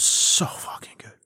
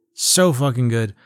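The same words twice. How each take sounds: First: Whispered in amazement; soft, reverent whisper; awed whisper. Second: Said in the usual way. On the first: Real, not acted. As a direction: drop to a hushed, marvelling whisper. Marvelling, then repeats it voiced.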